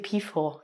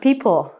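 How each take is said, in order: First: The P and H merge into an F sound. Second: The P and H are said separately. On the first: The speaker calls it wrong. "make sure you don't say peephole, because that sounds very strange" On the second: The speaker calls it right. "You need to take a break in between the P and the H"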